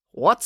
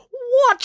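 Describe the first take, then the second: First: Said in the usual way. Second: Very high, loud, falling shriek; outraged yell. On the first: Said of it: "said Finn". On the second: A narrator's reading. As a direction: yell it in disbelief. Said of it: "she yelled".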